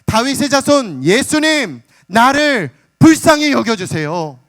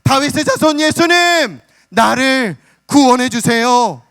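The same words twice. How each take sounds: First: Slow, high, loud pleading cry to Jesus; a blind beggar crying out loud for mercy; loud desperate cry. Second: Much higher, loud, half-sung wail; a beggar's near-chanted cry for rescue; full-throated wail. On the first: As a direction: cry out slowly, begging at the top of your voice. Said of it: "큰 소리로 외쳐대기 시작하는 거예요". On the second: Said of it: "목청이 터져라 외칩니다". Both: Retold or imitated.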